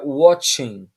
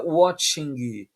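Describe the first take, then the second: First: The final g sound is dropped. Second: The final g sound is clearly pronounced. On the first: The speaker calls it right. "é watching" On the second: The speaker calls it wrong. "nós não falamos o G no final. Não é watching"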